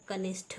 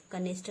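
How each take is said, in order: First: कनिष्ठ ending in aspirated th, kanishth; correct pronunciation. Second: कनिष्ठ ending in unaspirated t, kanist; wrong pronunciation. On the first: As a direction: puff out the last sound of कनिष्ठ. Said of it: "होता है". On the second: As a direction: drop the puff from the end of कनिष्ठ. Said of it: "नहीं होता". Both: Shown as a demonstration.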